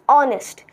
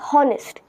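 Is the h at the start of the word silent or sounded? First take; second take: silent; sounded. First: The word begins with a silent h. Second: The word begins with a sounded h. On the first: The speaker calls it right. "So we silent the H" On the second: The speaker calls it wrong. "its pronunciation is not honest"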